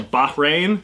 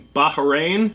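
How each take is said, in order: First: The name has no extra vowel in the middle. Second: The name has an extra vowel in the middle. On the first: The speaker calls it right. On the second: The speaker calls it wrong.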